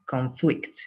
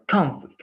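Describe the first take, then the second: First: The stress is on the second syllable. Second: The stress is on the first syllable. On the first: "the stress is in the second syllable" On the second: "the stress is in the first syllable"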